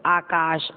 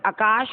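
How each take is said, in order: First: "आकाश" as aa-kaash; lengthened first vowel in "आकाश"; long first vowel. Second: "आकाश" as a-kaash, short first a; brief first vowel in "आकाश"; wrong short vowel. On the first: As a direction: hold the opening aa of "आकाश". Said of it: "आकाश शुद्ध है". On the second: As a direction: cut the opening vowel of "आकाश", rising. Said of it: "अशुद्ध, अशुद्ध". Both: Shown as a demonstration.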